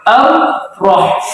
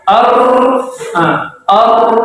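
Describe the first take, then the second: First: Ar-Rah dengan ro tebal sesuai tasydid; ro tebal pas. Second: Ar dengan ro digetarkan berlebihan. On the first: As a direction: ucapkan Ar-Rah tebal tanpa berlebihan. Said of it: "tidak boleh melebihi dari suara tasdidnya". (contoh benar ro tafkhim) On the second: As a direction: contohkan salah: ro terlalu panjang. (bacaan salah, ro melebihi tasydid) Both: Shown as a demonstration.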